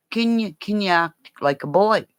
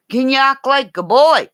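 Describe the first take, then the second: First: Slightly raised, higher-pitched asking voice; retold request. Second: Loud, high-pitched mock demand; insistent retold request. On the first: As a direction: put the question as a mild, higher request. Retold request, first milder take. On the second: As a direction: call the question out, pitched way up. Retold request, repeated louder.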